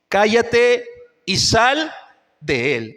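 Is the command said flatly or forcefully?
flat. It is read in a flat, ordinary tone. The speaker calls it wrong. "Está mal como, como lo he leído"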